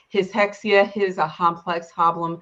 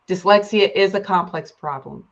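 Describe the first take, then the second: First: Each word starts with an H sound instead. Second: Each word keeps its normal first sound.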